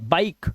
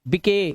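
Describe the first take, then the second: First: The final e is silent. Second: The final e is sounded as an extra vowel. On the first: The speaker calls it right. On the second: The speaker calls it wrong.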